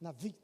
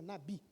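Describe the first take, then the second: First: The middle consonant sounds like a v. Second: The middle consonant sounds like a b. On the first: This is the Hebrew pronunciation. The speaker calls it right. "o certo é, é falar Navi. É um, um B parecendo um V" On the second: This is the Portuguese pronunciation. The speaker calls it wrong. "Em português é Nabi"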